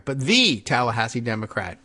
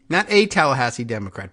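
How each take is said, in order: First: "the" said as a full "thee"; stress on the. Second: "a" said as a clear, full "ay"; stress on a. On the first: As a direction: lean on the article "the". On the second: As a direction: lean on the article "a". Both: Shown as a demonstration.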